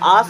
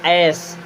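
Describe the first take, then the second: First: The vowel is a long open 'aa' sound. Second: The vowel is a short flat 'a' sound. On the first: The speaker calls it wrong. "इसे आस नहीं पढ़ेंगे" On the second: The speaker calls it right. "क्या पढ़ेंगे?"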